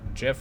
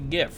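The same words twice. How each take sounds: First: It starts with a soft G sound. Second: It starts with a hard G sound. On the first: The speaker calls it wrong. "not GIF" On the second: The speaker calls it right. "It's supposed to be... graphic blah blah blah format. That's why it should be GIF"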